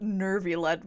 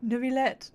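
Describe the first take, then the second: First: Nervillet with an R after "Ne"; mock the wrong R in "Nervillet"; R put in. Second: Neuvillette with no R in the first syllable. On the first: Streamer mocking Lyney's mistake, Nervillet with an added R. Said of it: "Why are you putting an R in there?". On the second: Streamer correcting Lyney's pronunciation, Neuvillette without an R. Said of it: "There's no R in Nervillet". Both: Shown as a demonstration.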